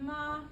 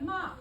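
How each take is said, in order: First: The syllable is stretched out and held long. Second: The syllable is said on a high pitch. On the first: It means mother. "If I say it extended" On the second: It marks a question. "if I say it high"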